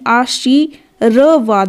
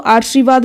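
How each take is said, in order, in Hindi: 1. r ध्वनि va से ठीक पहले बोली जाती है। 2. r ध्वनि va से ठीक पहले नहीं बोली जाती। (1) "र रैफ लगा होगा उस अक्षर से पहले उसका उच्चारण करना है" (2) "कुछ बच्चे इसको आशीर्वाद बोलते हैं"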